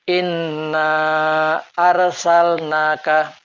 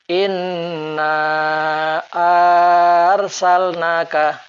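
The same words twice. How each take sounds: First: The vowel starting arsalnaka is kept short. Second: The vowel starting arsalnaka is drawn out long. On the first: The speaker calls it right. "Ini hamzah kotok harus pendek" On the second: The speaker calls it wrong. "salah sekiranya dipanjangkan"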